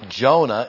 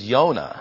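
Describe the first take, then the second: First: The name begins with a J sound. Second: The name begins with a Y sound. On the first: The speaker calls it wrong. "we anglicize them" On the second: The speaker calls it right. "Jonah is Yonah"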